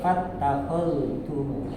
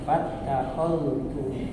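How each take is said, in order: Both takes have the same delivery.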